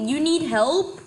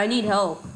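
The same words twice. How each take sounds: First: Mocking disbelief. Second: Said in the usual way. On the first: Real, not acted. Mocking teammate's plea.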